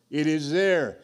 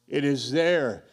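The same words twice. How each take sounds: The two takes are said the same way.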